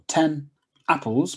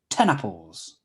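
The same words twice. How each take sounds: First: The two words are said separately. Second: The n is linked onto the next word.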